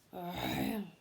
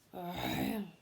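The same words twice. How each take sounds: First: It is said in a deep, masculine voice. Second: It is said in a deep, masculine voice.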